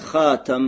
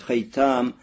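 First: The word is said as hatam. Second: The word is said as haytam. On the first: "Говорят хатам" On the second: "можно говорить хайтам"

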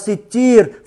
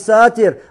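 First: The first vowel is an 'i' sound. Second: The first vowel is an 'a' sound. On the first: The speaker calls it right. "а имя Аллаха ситир" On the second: The speaker calls it wrong. "Правильное имя Аллаха не сатир"

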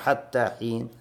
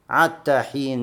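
First: The phrase begins with an h sound. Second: The phrase begins directly with a vowel. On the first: This is the usual reading. "вместо Хат-Тахин" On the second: This is how one tribe read it in its dialect. "племя Хузаль, читало Ат-Тахин"

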